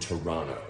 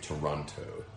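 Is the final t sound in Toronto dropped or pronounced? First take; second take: dropped; pronounced. First: The final t sound is dropped. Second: The final t sound is clearly pronounced. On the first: The speaker calls it right. "There's no T at the end" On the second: The speaker calls it wrong. "Torontonians do not say Toronto"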